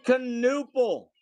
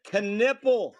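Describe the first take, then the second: First: Knueppel with an "oo" middle, drawn out; first pronunciation. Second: Knipple with a short "i" middle; alternative pronunciation. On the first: Card breaker trying out a player's surname, Knueppel said "kuh-NOO-pul". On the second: Card breaker offering another surname reading, Knipple said "kuh-NIP-ul". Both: Real, not acted. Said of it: "or Knipple".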